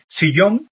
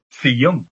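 First: The word begins with an s sound. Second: The word begins with a th sound. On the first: This is the standard pronunciation. "en vez de sillón" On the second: This is how some Andalusian regions say it. "todas las S se convierten en Z, la pronunciación fuerte"

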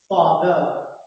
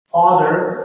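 First: The final r sound is dropped. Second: The final r sound is pronounced. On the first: "in a non-rhotic accent such as RP" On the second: "in a general American accent"

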